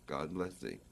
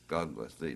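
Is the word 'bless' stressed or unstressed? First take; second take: stressed; unstressed. First: Both God and bless carry strong stress. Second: The word bless carries no strong stress. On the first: The speaker calls it right. "the accent would be on the bless as well as the God" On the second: The speaker calls it wrong. "Instead of"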